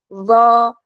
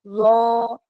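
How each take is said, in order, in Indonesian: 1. Huruf vokal itu diucapkan dengan bibir terbuka, tidak membulat. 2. Huruf vokal itu diucapkan dengan bibir membulat, dimonyongkan ke depan. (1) "fathah tetap dibuka tapi bunyinya "o"" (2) "itu yang salah ya, sama sekali itu salah"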